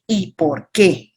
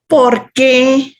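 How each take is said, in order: First: ¿Y por qué? dragged slowly, stretching qué; slow, deliberate ¿Y por qué?; slow drawn out question. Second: ¿Por qué? asked loud and high, punching por; loud questioning ¿Por qué?; emphatic asking ¿Por qué? with a high pitch; stressed question. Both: Shown as a demonstration. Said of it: "El por qué".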